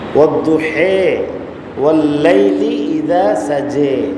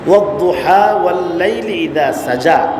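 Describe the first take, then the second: First: The rhyming words end in an 'e' sound. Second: The rhyming words end in an 'a' sound.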